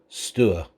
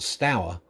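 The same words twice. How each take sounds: First: The name is said the local way. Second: The name is said as it is spelt. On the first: "the local pronunciation" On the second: "is spelt Stour"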